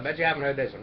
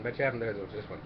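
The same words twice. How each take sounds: First: Said in the usual way. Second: Quiet aside. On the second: Shown as a demonstration.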